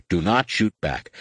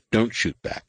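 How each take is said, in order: First: Firm order, "not" stressed as its own word. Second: Said in the usual way. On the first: Acted. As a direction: spell out the order, leaning on "not". Order repeated with emphasis.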